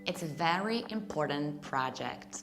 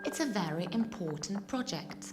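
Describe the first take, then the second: First: It is spoken with an American accent. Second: It is spoken with a British accent.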